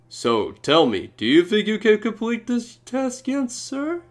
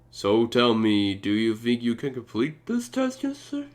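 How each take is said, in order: First: It is read in a funny voice. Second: It is read in a normal voice.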